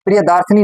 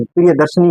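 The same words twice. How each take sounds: First: प्रियदार्शनी with long aa in daar; incorrect pronunciation. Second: प्रियदर्शनी with short a in dar; correct pronunciation. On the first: Teacher showing students the form to avoid, incorrect pronunciation. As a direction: say प्रियदार्शनी as priya-daar-shani. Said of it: "प्रियदार्शनी नहीं". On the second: Teacher giving students the proper word, correct pronunciation. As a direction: say प्रियदर्शनी as priya-dar-shani. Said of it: "प्रियदर्शनी होता है". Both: Shown as a demonstration.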